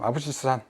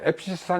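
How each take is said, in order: First: The b gets its own syllable, 'a-beu'. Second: The first syllable is closed, said 'aep'. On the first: "흔히 그냥 교재 또는 여러 가지 책들에 이제 되어 있는" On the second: "앱시스산 이렇게 발음하는 게 정확한 발음이라고 합니다"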